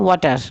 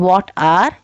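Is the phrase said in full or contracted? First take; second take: contracted; full. First: The words are run together with a sound dropped. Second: Both words are said fully and separately. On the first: "वो आवाज़ उन हर्फ की हटा देते हैं" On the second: "की बजाय"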